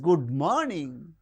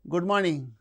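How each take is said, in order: First: The greeting sounds surprised and highly enthusiastic. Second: The greeting sounds flat and uninterested. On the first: "very surprised or uh, with highly enthusiasm" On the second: "it is uninterested"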